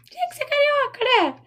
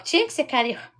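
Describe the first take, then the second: First: Much higher, playful teasing sigh; mock exasperation. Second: Said in the usual way. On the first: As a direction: tease her like a fond rival. Teasing a viewer from Rio. ("tinha que ser carioca" em tom agudo e brincalhão)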